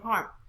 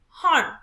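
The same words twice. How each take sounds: First: The word is said flat, with low pitch. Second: The word is said with raised, higher pitch. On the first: The speaker calls it wrong. "We don't just say harm" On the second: The speaker calls it right. "We have to raise our voice"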